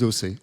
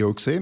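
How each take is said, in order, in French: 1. Le x se prononce s. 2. Le x se prononce ks. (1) "eux, ils disent O C" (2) "nous, on dit Oxé"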